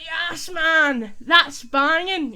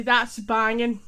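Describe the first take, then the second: First: Loud, high, drawn-out celebration; elated fan shout, stretching BANGING; football goal cheer. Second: Loud, punchy demo cheer; emphatic but at usual pitch; hyped and amazed. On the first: Acted. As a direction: roar it like your team just scored. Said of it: "your team scores". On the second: Shown as a demonstration. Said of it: "so hyper and amazed".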